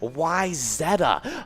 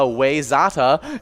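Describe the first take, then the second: First: The first syllable sounds like 'why'. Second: The first syllable sounds like 'way'. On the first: The speaker calls it right. "The actual pronunciation is" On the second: The speaker calls it wrong. "is usually the, the mispronunciation"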